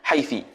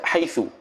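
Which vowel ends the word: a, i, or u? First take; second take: i; u. First: The word ends with an i vowel. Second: The word ends with a u vowel. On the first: "wal kasru"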